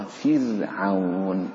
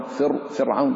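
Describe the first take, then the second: First: فرعون slowly with a light, thin ra; فرعون, ra softened, slow; thin r in Firaun. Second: فرعون with a thick, full-mouthed ra; فرعون, ra wrongly thickened; wrong heavy ra. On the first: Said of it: "رقق الراء فرعون". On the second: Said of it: "غلط". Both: Shown as a demonstration.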